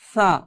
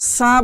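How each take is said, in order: First: The consonant is said soft and gentle. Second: The consonant is said hard and firm. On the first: The speaker calls it right. "নরম করতে গেলে সা" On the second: The speaker calls it wrong. "এটা নরম থাকতেছে না, এটা শক্ত হয়ে যাচ্ছে"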